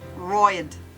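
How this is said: The word is said in an Australian accent. "In Australian English"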